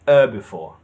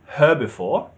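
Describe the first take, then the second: First: The word begins without any H sound. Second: The word begins with an audible H sound. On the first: "You take the H off" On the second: "In British, herbivore, h"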